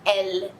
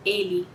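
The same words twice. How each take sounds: First: Elle with a short open e and a clear L; right French elle. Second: Ele said Portuguese style, ending in i; wrong Portuguese ele; Brazilian ele. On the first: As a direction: say elle as one syllable ending in L. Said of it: "você vai falar elle". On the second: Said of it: "você não vai falar ele". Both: Shown as a demonstration.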